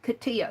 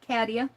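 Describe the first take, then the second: First: The first syllable does not sound like cat. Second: The first syllable sounds like the word cat. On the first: This is how the presenter says the name. "but I like Katia" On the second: This is how the name's owner says it. "Cat like cat, K A T"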